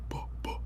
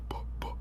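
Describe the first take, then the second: Both takes have the same delivery.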